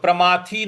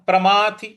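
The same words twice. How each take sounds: First: The final vowel is long. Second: The final vowel is short. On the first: The speaker calls it wrong. "नहीं बोलना है" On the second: The speaker calls it right. "थ पर छोटी की मात्रा है"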